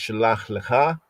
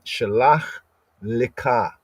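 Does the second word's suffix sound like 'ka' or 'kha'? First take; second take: kha; ka. First: The suffix is said with a soft, breathy kha. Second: The suffix is said with a hard ka. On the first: This is one common way of reading it. "Some would enunciate it as" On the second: This is an older way of reading it. "in the ancient, more ancient Afro-Semitic pointing"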